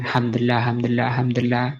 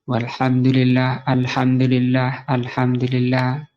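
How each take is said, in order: First: It is said quickly and carelessly. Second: It is said slowly and clearly.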